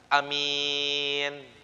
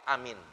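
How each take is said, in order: First: The first vowel is short, the second long. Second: Both the first and second vowels are short. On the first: "A-nya pendek, mimnya panjang" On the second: "pendek semua"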